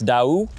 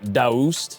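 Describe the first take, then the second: First: The name is said with its original pronunciation. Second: The name is said with an American pronunciation. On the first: The speaker calls it right. "but it's Daewoo" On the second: The speaker calls it wrong. "most people in America would probably call it"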